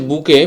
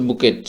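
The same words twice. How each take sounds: First: বুকে with silent t, "boo-kay"; correct pronunciation. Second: বুকেট with final t sounded, "boo-ket"; spelling pronunciation. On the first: Teacher names the flower word, silent t. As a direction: end বুকে on the vowel. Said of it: "এটা আমরা বলে থাকি". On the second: Teacher reads it as spelled, t sounded. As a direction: close বুকেট on a hard t. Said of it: "উচ্চারণটা হচ্ছে". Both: Shown as a demonstration.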